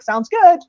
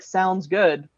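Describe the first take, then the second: First: The voice rises at the end. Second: The voice falls at the end. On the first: "Which has a kind of slight flat rise" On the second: "that lowering of the voice"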